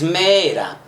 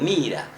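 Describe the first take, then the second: First: The first vowel sounds like 'e'. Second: The first vowel sounds like 'i'. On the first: "es mera" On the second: "algunos lo pronuncian como mira"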